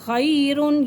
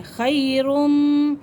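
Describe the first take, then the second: First: Said in the usual way. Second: खैरुम drawn out slowly with a held nasal m; tanween turned to m. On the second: Shown as a demonstration. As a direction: stretch खैरुम and hum the m before मिन. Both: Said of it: "तनवीन के फ़ौरन बाद मीम आ रही है".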